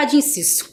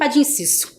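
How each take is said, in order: First: The words are reduced and run together. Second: The same.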